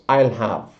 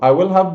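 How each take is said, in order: First: Pronoun and will merge into one syllable. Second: Every word is said in full.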